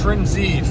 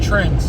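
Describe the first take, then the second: First: It is said as Trend then a separate Z. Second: It is said as one syllable, like trends. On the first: The speaker calls it right. "It's Trend Z" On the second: The speaker calls it wrong. "it's not trends"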